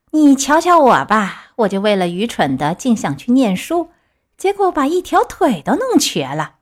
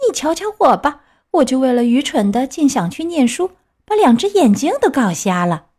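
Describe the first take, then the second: First: A hint of cautionary fox, swinging up at the end; lightly voiced fox. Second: Slightly higher cautionary cat voice; lightly voiced cat. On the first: Fox warns Pinocchio off studying, lightly acted lament. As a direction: warn as a crafty storybook fox, lightly acted. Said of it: "狐狸说". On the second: Cat echoes the fox's warning, lightly acted higher lament. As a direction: echo the complaint as a storybook cat. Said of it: "猫说了". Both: A narrator's reading.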